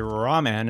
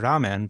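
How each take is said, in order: First: The R is a plain American-style R. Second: The R is a quick rolled Japanese R. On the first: The speaker calls it wrong. "an American, might say ramen" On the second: The speaker calls it right. "Japanese trill their R's"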